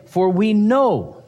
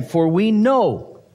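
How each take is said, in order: First: "For we know" slow again, KNOW stressed and falling; emphatic quote. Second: "For we know" slow, with KNOW stressed and falling; emphatic quote. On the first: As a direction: repeat "For we know" slowly, pressing on know. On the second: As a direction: draw out "For we know", landing hard on know. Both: Shown as a demonstration. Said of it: "He's emphasizing what may".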